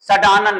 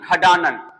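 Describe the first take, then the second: First: The word begins with an s sound. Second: The word begins with a kh sound. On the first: The speaker calls it wrong. "सडानन नहीं" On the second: The speaker calls it right.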